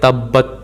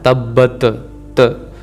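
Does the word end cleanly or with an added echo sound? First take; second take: clean; echo. First: The word ends cleanly with no extra bounce. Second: An extra bouncing 't' sound follows the word. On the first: The speaker calls it right. "इसको हम पढ़ेंगे तब्बत" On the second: The speaker calls it wrong. "ये गलत है"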